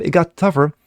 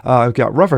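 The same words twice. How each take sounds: First: "tougher" said by mistake, as in tough; misread word. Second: "rougher" said with an r, as in rough; corrected word. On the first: News reader slips and says "tougher" in a plain read. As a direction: reads "tougher" before catching the slip. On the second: News reader corrects himself to "rougher" in a plain read. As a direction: fixes the slip to "rougher". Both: Real, not acted. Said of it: "excuse me".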